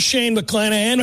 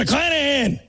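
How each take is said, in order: First: Said in the usual way. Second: Higher, punched repeat of McClanahan; exclaimed name. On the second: Shown as a demonstration. Host announcing the pitching probables, exclaimed.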